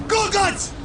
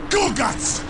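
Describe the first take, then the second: First: High-pitched, outraged yell; yelling after someone. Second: First sharp call after someone leaving. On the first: Warlord calls again after the deserting orc, outraged. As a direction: yell the name at a retreating back. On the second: Warlord calls after the deserting orc, indignant. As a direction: call the name in disbelief. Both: Acted.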